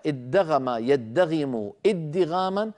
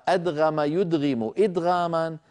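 First: ادغم يدغم ادغاما said slowly with a heavy doubled dal; Kufan doubled dal. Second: أدغم يدغم إدغاما with a vowelless d straight into gh; Basran single dal. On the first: Teacher showing the Kufan term, ادغم slow with doubled d. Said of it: "فهذا مصطلح كوفي". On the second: Teacher showing the Basran term, أدغم with single d. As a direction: say أدغم as adghama, d undoubled. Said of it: "فهذا مصطلح بصري". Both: Shown as a demonstration.

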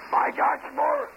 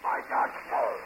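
First: Raised, high call across a noisy bar, rising at the end. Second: Said in the usual way. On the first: Real, not acted. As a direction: call the name out to the whole room. Bartender calls the name across the bar.

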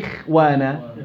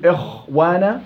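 First: "إخوانا" with a lighter khaa after i; relative tafkhim. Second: "إخوانا" with a thick, rounded khaa; over-heavy khaa. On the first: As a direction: keep the خ in "إخوانا" unrounded. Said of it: "ولا إخوانا". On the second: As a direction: weigh down the خ in "إخوانا". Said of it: "هل بقول إخوانا ولا إخوانا". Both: Shown as a demonstration.

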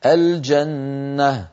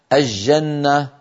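First: الجنة very slowly as "al-janna", clear L and held n; classical izhar. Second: الجنة as "aj-janna", L lost in a doubled j; colloquial Levantine merging. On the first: Shown as a demonstration. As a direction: say الجنة with a distinct L before j. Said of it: "الفصيح أن نقول". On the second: Retold or imitated. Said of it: "بعض العامة وخاصة في بلاد الشام يقولون".

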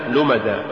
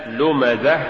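First: "لمزة" ending in an open long a, no h; final ha becomes alif. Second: Said in the usual way. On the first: Shown as a demonstration. Teacher showing an error, "لمزة" ended on alif instead of ha. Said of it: "تقرأ لحنا". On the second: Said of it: "استبدال الهاء بالألف".

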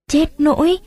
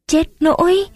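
First: High, rising cry on nỗi; Chết nỗi with nỗi lifted high in alarm; dismayed gasp. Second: Even higher rising cry on nỗi; Chết nỗi with nỗi pitched up higher still; dismayed gasp. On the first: Tuất reacts to the news of the arrest, high and dismayed. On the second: Tuất asks why her brother was jailed, alarmed and high. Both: A narrator's reading.

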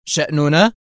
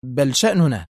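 First: شأننا as an indignant question, rising at the end; disbelieving echo. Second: شأننا as an edgy statement with a falling end; tense correction. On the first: Agent echoes the woman's word back, indignant rising شأننا. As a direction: throw شأننا back, pitch climbing in disbelief. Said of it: "وهو يكرر في استنكار". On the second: Woman corrects the agent on whose business it is, edgy falling شأننا. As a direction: insist on شأننا, letting it fall. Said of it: "قائلة في عصبية". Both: A narrator's reading.

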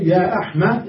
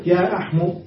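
First: يا أحمى ending on an open a; ending with fatha. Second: يا أحمو ending on a u; ending with damma. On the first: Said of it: "أحمى على لغة من ينتظر". (نطق يا أحمَ بالفتح) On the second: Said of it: "وأحمو على لغة من لا ينتظر". (نطق يا أحمُ بالضم) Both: Shown as a demonstration.

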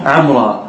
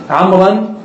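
First: عمرا said ʕamra, long a with no n and a falling end; عمرا closed as ʕamra in pause; pausal form. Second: عمرا said ʕamran with the final n sounded and a rising end; عمرا pronounced ʕamran as in running speech; with nunation. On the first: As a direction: stop on عمرا as ʕamra, dropping the n. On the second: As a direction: read عمرا in full as ʕamran, ending up. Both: Shown as a demonstration. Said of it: "قفي على زيدا".

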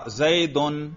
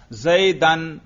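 First: زیدن ending in a clear "-un"; nominative ending. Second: زیدن ending in a clear "-an"; accusative ending. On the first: Teacher quizzing students on case endings, زیدن sounded "zaydun". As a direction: read زیدن as "zay-dun", with an u before the n. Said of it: "میں نے رفع پڑھا ہے". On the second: Teacher quizzing students on case endings, زیدن sounded "zaydan". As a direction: read زیدن as "zay-dan", with an a before the n. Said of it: "نصب پڑھا ہے". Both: Shown as a demonstration.

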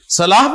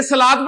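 First: صلاح said salaah with h at the end; final h sound. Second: صلاۃ said salaat, closing on t; final t sound. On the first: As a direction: close صلاح on a breathed h. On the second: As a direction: end صلاۃ with an audible t. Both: Shown as a demonstration. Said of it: "صلاح پڑھیں گے نا کہ صلاۃ".

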